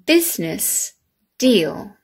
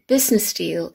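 First: Each sound is pronounced in an exaggerated way. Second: The phrase is said naturally, without exaggeration. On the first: "this exaggerated way" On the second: "how we normally say them"

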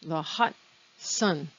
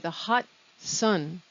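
First: The words are split with a break before 'sun'. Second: The same.

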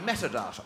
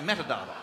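First: It is said in a distinctive, posher way. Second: It is said in the common Australian way. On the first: This is the impersonated politician's own way of saying it. "And I say metadata" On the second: This is how ordinary Australians say it. "Australians say metadata"

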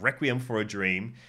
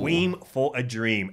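First: Requiem is said with its usual standard vowel. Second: Requiem is said so it rhymes with dream. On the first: The speaker calls it right. "I'm gonna say it the real way this time" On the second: The speaker calls it wrong. "I always pronounce that like it's a rhyme for some reason"

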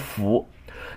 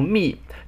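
First: The syllable is pronounced fu. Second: The syllable is pronounced mi. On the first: It is read in its ordinary sense. "这个字还有一个读音叫做"符"" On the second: It is read as a personal name. "这个字应该读"密""

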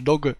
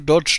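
First: The word ends with a hard g sound. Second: The word ends with a j sound. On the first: The speaker calls it right. "Pronounce it properly. It's dog coin" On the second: The speaker calls it wrong. "It's not to dodge like in German ausweichen"

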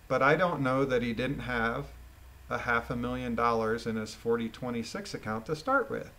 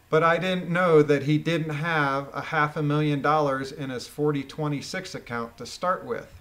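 First: It is read with a question's rising tune. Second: It is read as a flat statement.

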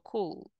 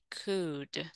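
First: An L sound is pronounced in the word. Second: No L sound is pronounced in the word. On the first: The speaker calls it wrong. "Yo no digo cool" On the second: The speaker calls it right. "No se pronuncia la L, sino que digo I could"

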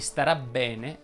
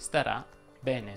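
First: The b of bene is lengthened, doubled. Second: The b of bene is short, single. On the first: The speaker calls it right. "Si dirà" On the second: The speaker calls it wrong. "anziché"

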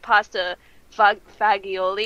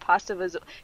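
First: The last word is said in full, ending 'olee'. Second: The last word is clipped, ending in 'ool'. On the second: "how do you pronounce that word?"

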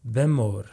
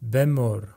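The two takes are said the same way.

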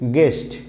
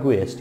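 First: The word has no sound for the written u. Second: The word has an extra sound for the written u. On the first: The speaker calls it right. "It will be guest" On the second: The speaker calls it wrong. "not guest"

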